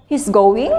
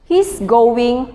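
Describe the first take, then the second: First: "He's going" with the pitch rising on "going", a question. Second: "He's going" with the pitch falling at the end, a flat statement. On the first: Teacher demonstrating a question, "He's going" with rising intonation. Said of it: "with a rising intonation is a question". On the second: Teacher demonstrating a statement, "He's going" with falling intonation. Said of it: "with falling intonation is a statement". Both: Shown as a demonstration.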